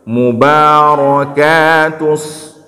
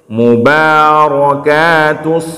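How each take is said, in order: No difference in how they are said.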